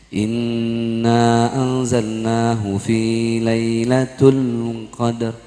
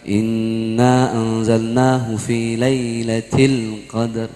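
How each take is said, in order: First: The word before qadar ends with the vowel u. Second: The word before qadar ends with the vowel i. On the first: The speaker calls it wrong. "harus kan fi lailatil ya" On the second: The speaker calls it right. "oh bukan tul nih til"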